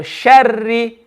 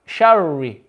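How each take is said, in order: First: The r is a light Arabic ra, empty mouth. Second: The r sounds like an English r. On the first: The speaker calls it right. "we're going to read the ra mushaddad empty mouth" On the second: The speaker calls it wrong. "I've read like the English letter R"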